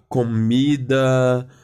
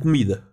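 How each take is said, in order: First: Every vowel is pronounced fully and clearly. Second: The unstressed vowels are reduced or dropped. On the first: "Nós brasileiros falamos as letras letra por letra" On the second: "Os portugueses falam comida"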